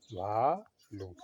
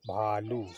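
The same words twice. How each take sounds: First: "भालू" stretched very slowly, each syllable held; slowly drawn out. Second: Said in the usual way. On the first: Shown as a demonstration. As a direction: draw out "भालू" so the class can repeat it.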